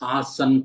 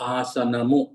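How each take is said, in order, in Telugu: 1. ఈ పదం సాధారణ n హల్లుతో ముగుస్తుంది. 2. ఈ పదం చేర్చిన 'ము' అక్షరంతో ముగుస్తుంది. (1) "ఆసన్ కాదు. ఆసన్ అనేది హిందీ" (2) "ఆసనము తెలుగు"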